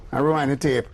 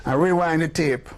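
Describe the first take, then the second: No difference in how they are said.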